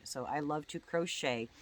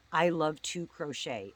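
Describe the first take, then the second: First: Said in the usual way. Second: "I Love to Crochet" said slowly and carefully, a little louder; spelling out a name. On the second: Shown as a demonstration. Giving viewers the channel name, slow careful emphasis. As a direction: spell the handle out deliberately, slowly. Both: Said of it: "the two is the number two".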